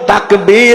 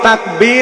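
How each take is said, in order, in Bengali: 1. শেষ দলটি লম্বা করে টানা হয়। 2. শেষ দলটি ছোট, টানা হয় না। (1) "শেষে একালি টান আছে" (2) "তাকবীর না"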